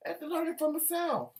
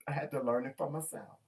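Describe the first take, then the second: First: High, mocking repeat of the line; mock sing-song echo. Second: Said in the usual way. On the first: Shown as a demonstration. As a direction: lift it up high and play with it.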